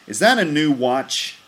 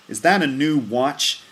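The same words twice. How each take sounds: Both takes have the same delivery.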